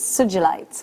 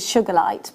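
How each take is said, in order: First: The word is said like 'soo-gee-lite'. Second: The word is said like 'sugar light'. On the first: The speaker calls it right. "but it's Sugilite" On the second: The speaker calls it wrong. "I've always pronounced it Sugarlight"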